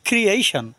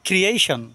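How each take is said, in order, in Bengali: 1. উচ্চারণাংশগুলো একসাথে জুড়ে, সাবলীলভাবে বলা হয়। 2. উচ্চারণাংশগুলো একসাথে জুড়ে, সাবলীলভাবে বলা হয়।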